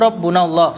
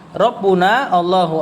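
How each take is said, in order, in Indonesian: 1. Kedua kata itu diucapkan menyambung. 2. Kedua kata itu diucapkan terpisah.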